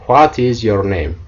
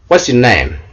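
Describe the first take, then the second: First: The first two words are said separately. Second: The first two words are contracted together.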